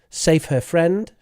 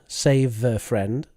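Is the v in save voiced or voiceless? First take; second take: voiceless; voiced. First: The v sound is voiceless, without voicing. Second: The v sound is fully voiced. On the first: The speaker calls it wrong. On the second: The speaker calls it right.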